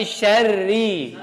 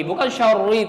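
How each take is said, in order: First: Syarri with a single light r, slow; correct syarri. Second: Syarri with a doubled held rr, marked as wrong. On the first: Teacher showing students the right syarri, single r. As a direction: say syarri with one short r. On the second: Teacher showing students the wrong syarri, doubled rr. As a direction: say syarri with the r geminated too long. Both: Shown as a demonstration. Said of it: "Bukan syarri, tapi syarri".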